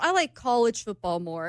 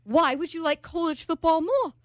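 First: Said in the usual way. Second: Put-on higher, puzzled British accent. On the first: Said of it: "And I was like". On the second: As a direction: imitate a baffled British man. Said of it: "[name]'s doing with the accent".

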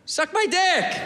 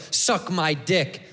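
First: High, friendly "suck my dick." offer; nice. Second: Low, slow and hostile; negative. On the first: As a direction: say "suck my dick." sweetly and politely. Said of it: "We should say it nice". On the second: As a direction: spit "Suck my dick." out like an insult. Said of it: "We say it negative". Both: Shown as a demonstration.

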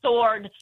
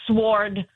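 First: Sword with silent w; right pronunciation. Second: Sword with the w sounded; mispronounced. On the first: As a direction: say sword as SORD, drawn out. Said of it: "but I know it's". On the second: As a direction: say sword with sw as in swore. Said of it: "it comes out". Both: Shown as a demonstration.

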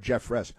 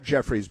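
First: Jeffress said as JEF-ress, ending in -ress; right name said. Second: Jeffries said as JEFF-reez, the wrong version; rejecting Jeffries, said JEFF-reez; wrong name said. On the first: Host correcting a name for listeners, the right JEF-ress. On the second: Host correcting a name for listeners, the wrong JEFF-reez. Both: Shown as a demonstration. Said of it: "not Jeffries, but Jeffress".

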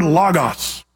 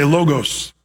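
First: "logos" said as LAH-gahs; short-o pronunciation. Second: "logos" said as LOH-gohs; long-o pronunciation. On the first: Preacher introducing the Greek word to the church, "logos" as LAH-gahs. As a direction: say "logos" with open ah in both syllables. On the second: Preacher giving the church another pronunciation, "logos" as LOH-gohs. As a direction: say "logos" with long oh in both syllables. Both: Shown as a demonstration. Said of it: "Some people say logos".

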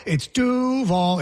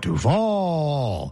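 First: Duval punched high on DU, dropping on val; correct Duval. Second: Duval with a long, sliding final syllable; mock Duval, swooping through the end; mispronounced Duval. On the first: Shown as a demonstration. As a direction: say Duval up, then down, slowly. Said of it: "It's up, down". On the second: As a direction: mimic Duval with VAL drawn way out. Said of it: "Instead, he went".

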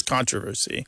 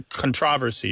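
First: CONtroversy, stressed on CON; stress on first syllable. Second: ConTROversy, stressed on TRO; stress on second syllable. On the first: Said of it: "previously been stressed on the first syllable". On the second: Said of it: "becoming stressed on the second syllable". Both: Shown as a demonstration.

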